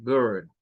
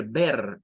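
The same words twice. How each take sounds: First: Ver with a schwa and an English r; ver, like a reversed three. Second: Ver with a Spanish e; wrong Spanish way. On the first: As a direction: say ver, vowel an r-coloured schwa. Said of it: "Eso es ver". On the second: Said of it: "No es como decir ver". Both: Shown as a demonstration.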